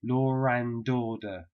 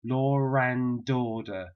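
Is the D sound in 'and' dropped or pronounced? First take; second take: pronounced; pronounced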